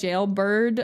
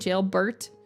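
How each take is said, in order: First: The ending sounds like 'bird'. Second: The ending sounds like the name 'Bert'. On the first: "instead of saying jailbird" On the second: "I'm saying jailbert. But it sounds like Bert"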